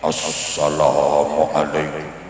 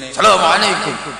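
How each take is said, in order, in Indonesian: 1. Suaranya bergetar dan goyah. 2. Suaranya melengking dan keras. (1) "Biasanya suaranya digedek-gedek no" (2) "salamnya ya tetap pakai nada tinggi keras"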